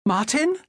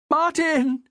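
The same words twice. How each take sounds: First: High, rising call of the name; raised questioning voice; anxious question. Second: High, falling cry of the name; high-pitched shocked call; horrified cry. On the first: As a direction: ask for your husband uncertainly. Wife answers husband amid shipwreck. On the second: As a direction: cry out as your husband is lost. Wife sees husband killed, horror. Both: A narrator's reading.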